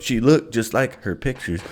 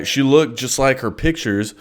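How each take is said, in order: First: Said in the usual way. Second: Stiff robotic monotone; flat and mechanical, like reading. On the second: Real, not acted. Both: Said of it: "Dude, I sound like a fucking robot".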